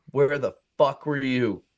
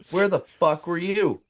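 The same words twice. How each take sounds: First: Slow, level challenge; mock-tough challenge. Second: Insistent mock challenge. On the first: Teller bluffs back at the real pimp, measured challenge. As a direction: bluff toughness without raising the voice. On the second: Teller repeats himself to the pimp, raised insistent challenge. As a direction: press the bluff harder.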